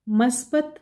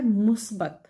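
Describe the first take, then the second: First: मस्बत with a first; wrong pronunciation. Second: मुस्बत with u first; correct pronunciation. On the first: (गलत उच्चारण मस्बत) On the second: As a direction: teach मुस्बत, mus-bat. (सही उच्चारण मुस्बत) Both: Shown as a demonstration. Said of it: "सही तलफ़ुज़ है".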